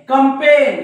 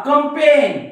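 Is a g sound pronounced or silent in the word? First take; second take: silent; silent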